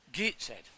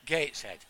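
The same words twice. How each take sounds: First: Gateshead with an "ee" in the first syllable, like "Geetsed"; dialect Gateshead. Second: Said in the usual way. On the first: Retold or imitated. Imitating aunt's boyfriend from Gateshead, dialect "Geetsed" for Gateshead. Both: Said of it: "I couldn't understand a word he said".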